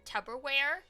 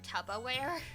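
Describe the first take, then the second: First: The word is said with its usual vowels. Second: The word is said with an added A sound.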